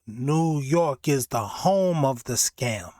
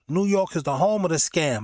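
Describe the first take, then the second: First: Slow, weighty, every word landed; slow emphatic line. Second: Said in the usual way. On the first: Shown as a demonstration. Host repeating his own catchphrase, slow and emphatic. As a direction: hammer the catchphrase home slowly. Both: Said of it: "repeated catchphrase".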